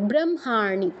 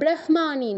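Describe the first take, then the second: First: The m sound is said before the h. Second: The h sound is said before the m. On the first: The speaker calls it right. "এই জন্য আমরা মটা আগে উচ্চারণ করব" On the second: The speaker calls it wrong. "নয়"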